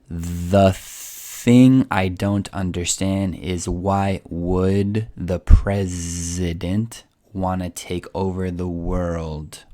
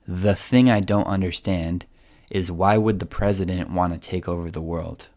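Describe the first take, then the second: First: It is said slowly. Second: It is said fast.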